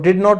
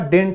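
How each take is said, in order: First: It is said as two separate full words. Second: It is said as one contracted word. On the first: The speaker calls it wrong. "डिड नॉट नहीं होता" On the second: The speaker calls it right. "डिडंट होता है"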